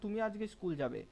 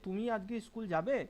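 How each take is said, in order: First: It ends firmly, like a statement or order. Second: The last word is drawn out, like a question. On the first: The listener is being ordered to go to school. "মনে হচ্ছে আমি তোমাকে আদেশ দিচ্ছি" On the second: The listener is being asked whether they will go. "শেষে যাবে এটা টানলাম"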